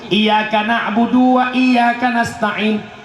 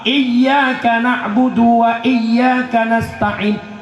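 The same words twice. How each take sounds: First: The y sound is short and single. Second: The y sound is held and doubled. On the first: The speaker calls it wrong. "hilang tasydid berubah makna" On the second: The speaker calls it right. "nak tasydid"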